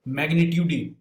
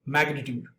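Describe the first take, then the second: First: "magnitude" with the final E sounded, magni-tyoo-dee; mispronounced magnitude. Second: "magnitude" ending on a D, magni-tyood; correct magnitude. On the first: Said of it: "I said". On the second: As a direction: keep the final E silent in "magnitude". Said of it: "instead of". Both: Shown as a demonstration.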